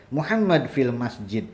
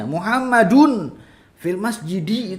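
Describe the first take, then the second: First: Muhammad fil masjid with every ending cut off, all sukun; final vowels dropped. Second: Muhammadun fil masjidi with every final vowel sounded, slow; clear harakat. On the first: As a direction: clip each word ending short, no harakat. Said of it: "sukun-sukunin". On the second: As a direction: spell out each ending slowly and clearly. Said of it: "itu harus jelas harokatnya". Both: Shown as a demonstration.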